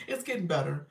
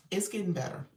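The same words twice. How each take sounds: First: Said through a laugh, a bit louder. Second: Said in the usual way. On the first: Real, not acted. Host answering a friend about her health, laughing. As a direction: laugh as you repeat it.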